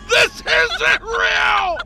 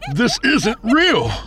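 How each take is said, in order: First: It is screamed at full volume. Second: It is said louder than before.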